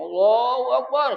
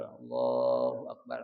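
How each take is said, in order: First: High, loud, stretched Allahu Akbar; loud takbir. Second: Slow, drawn-out Allahu Akbar at normal volume; measured opening of prayer; prayer takbir. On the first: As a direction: belt out the takbir so the caller hears it. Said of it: "kencengnya Allahu Akbar". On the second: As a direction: intone the takbir slowly and low. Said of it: "panggilan Allah tutupin dulu". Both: Shown as a demonstration.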